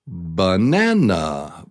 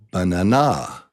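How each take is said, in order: First: The stress is on the middle syllable. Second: The stress is not on the middle syllable. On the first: The speaker calls it right. "the middle syllable, syllable number two, is the top, is the stressed syllable" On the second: The speaker calls it wrong. "let me say it for you incorrectly"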